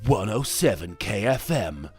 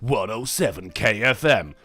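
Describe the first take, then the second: First: It is said in a plain announcer voice. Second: It is said in a tinny radio voice.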